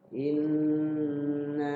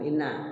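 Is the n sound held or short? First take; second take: held; short. First: The n sound is held long and nasal. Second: The n sound is rushed and cut short. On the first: The speaker calls it right. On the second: The speaker calls it wrong. "Jangan inna"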